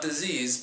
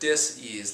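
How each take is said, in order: First: It is said smoothly as one word. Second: It is split with a break before ease. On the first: It names an illness. The speaker calls it wrong. "Not disease" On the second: It means a lack of ease in the body. The speaker calls it right. "dis hyphen ease"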